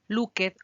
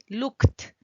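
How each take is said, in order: First: The e in the ending is pronounced aloud. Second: The e in the ending is not pronounced. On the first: The speaker calls it wrong. "No puedes decir" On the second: The speaker calls it right. "La E no suena"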